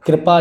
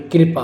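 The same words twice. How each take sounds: First: कृपा as "krapa", vowel after kr lost; higher, louder कृपा without the i sound; mispronounced कृपा. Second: Said in the usual way. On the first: Shown as a demonstration. Teacher rejecting a misspelling, कृपा said as "krapa". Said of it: "कृपा नहीं होगी". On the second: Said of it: "कृपा होगी".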